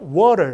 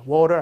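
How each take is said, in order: First: The stress is on the first syllable. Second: The stress is not on the first syllable. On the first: The speaker calls it right. "강세가 앞에 줘야 돼요. ... water 이렇게" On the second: The speaker calls it wrong. "water 아니라"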